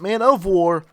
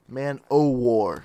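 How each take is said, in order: First: The middle word is said as 'of'. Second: The middle word is said as 'oh'. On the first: The speaker calls it wrong. "Not Man of War" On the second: The speaker calls it right.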